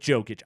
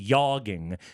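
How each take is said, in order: First: The name begins with a hard J sound. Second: The name begins with a soft Y sound. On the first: The speaker calls it wrong. "He had to go with Jokic" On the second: The speaker calls it right. "go with the soft J"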